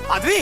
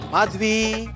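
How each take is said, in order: First: The name is called out irritably. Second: The name is called out affectionately.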